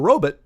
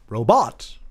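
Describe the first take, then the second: First: The second syllable sounds like 'but'. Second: The second syllable sounds like 'bot'. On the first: "R O B U T. That's a robot" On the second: "R O B O T, robot"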